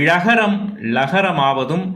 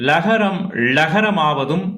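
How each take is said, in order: Both takes have the same delivery.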